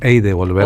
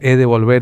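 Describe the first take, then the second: First: The first word is a gliding 'ey' sound. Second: The first word is a plain 'eh' sound. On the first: "otros hey de volver" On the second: "Algunos cantan he de volver"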